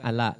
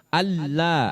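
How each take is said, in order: First: The middle l sound is short and light. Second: The middle l sound is pressed and held long. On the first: The speaker calls it wrong. "Bukannya ala, bala, bukan" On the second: The speaker calls it right. "Tapi ditekan"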